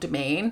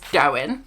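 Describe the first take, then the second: First: The name sounds like 'domain'. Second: The name sounds like 'dowen'. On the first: The speaker calls it wrong. "not domain" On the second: The speaker calls it right. "It's Dowen"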